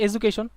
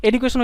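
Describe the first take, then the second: First: এডুকেশন with a j sound, e-ju-ke-shon; American pronunciation. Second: এডুকেশন with a hard d, e-du-ke-shon; first of two pronunciations. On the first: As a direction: turn the "du" of এডুকেশন into "ju", American-style. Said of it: "আর আমেরিকানরা বলে হচ্ছে". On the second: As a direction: keep a clean "du" in এডুকেশন. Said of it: "ইডিইউর উচ্চারণটা দুইভাবে হতে পারে". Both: Shown as a demonstration.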